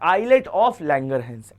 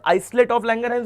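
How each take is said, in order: First: The s in islet is silent. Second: The s in islet is pronounced. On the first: The speaker calls it right. "बोला जाता है आइलेट of Langerhans" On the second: The speaker calls it wrong. "कुछ लोग आइलेट आइसलेट of Langerhans ही बोलते हैं"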